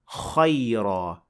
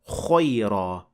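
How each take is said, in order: First: The vowel after kh is open, with unrounded lips. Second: The vowel after kh is rounded, like an O. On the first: The speaker calls it right. "that's why we say kha, khayra" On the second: The speaker calls it wrong. "not khayra. That is not the same"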